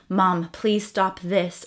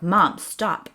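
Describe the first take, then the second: First: It is said in a gentle, pleading tone. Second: It is said in a firmer, stern tone.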